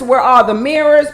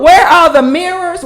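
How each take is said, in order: First: Said in the usual way. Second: Excited call. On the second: Real, not acted.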